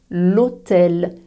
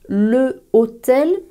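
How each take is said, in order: First: The article loses its vowel before hôtel. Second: The article keeps its vowel before hôtel. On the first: The speaker calls it right. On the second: The speaker calls it wrong.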